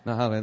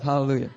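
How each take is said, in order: First: Said in the usual way. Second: Laughing, self-satisfied Hallelujah; mock greedy Hallelujah; smug hallelujah. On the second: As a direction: say Hallelujah like gloating over the fruit. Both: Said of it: "That's not my attitude".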